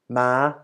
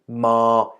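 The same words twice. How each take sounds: First: The syllable is said on a high pitch. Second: The syllable is said on a level mid pitch. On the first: "high tone" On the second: "middle tone"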